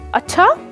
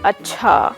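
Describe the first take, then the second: First: The word is said short and sharp. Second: The word is said flat, without melody.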